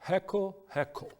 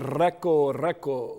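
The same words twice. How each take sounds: First: The r sounds like a breathy h. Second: The r sounds like an English r. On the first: The speaker calls it right. "we say like a kind with a H" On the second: The speaker calls it wrong. "we don't say reco-reco"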